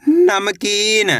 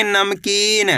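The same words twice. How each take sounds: First: नमकीन read very slowly, syllable by syllable; drawn-out reading. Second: Said in the usual way. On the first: Shown as a demonstration. Teacher slowly sounds out नमकीन for children. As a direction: stretch out नमकीन slowly for pupils. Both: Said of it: "कैसे पढ़ेंगे?".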